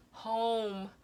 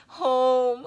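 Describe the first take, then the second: First: Said in the usual way. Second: Loud, high cry of home, emotion welling up; moved, near tears. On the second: Real, not acted. Reader overcome while telling viewers about home. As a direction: let the word burst out, close to crying. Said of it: "I'm gonna start crying".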